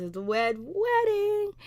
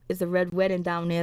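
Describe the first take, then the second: First: Much higher and slow, like an ominous trailer voice; dramatic announcement. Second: Said in the usual way. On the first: Retold or imitated. Recapping the show to viewers, a mock dramatic high announcement.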